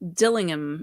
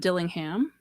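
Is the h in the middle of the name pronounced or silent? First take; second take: silent; pronounced. First: The middle h sound is dropped. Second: The middle h sound is pronounced. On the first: The speaker calls it right. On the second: The speaker calls it wrong.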